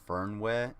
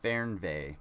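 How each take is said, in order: First: The middle consonant sounds like an English w. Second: The middle consonant sounds like an English v. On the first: The speaker calls it wrong. "the word isn't actually Fernweh" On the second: The speaker calls it right. "it's Fernweh, because that's how you pronounce German"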